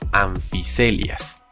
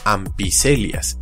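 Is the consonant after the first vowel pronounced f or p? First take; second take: f; p. First: The consonant is pronounced as a soft f. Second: The consonant is pronounced as a p. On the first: The speaker calls it right. "PH se pronuncia como una F suave" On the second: The speaker calls it wrong. "no lo leí como ampicelias"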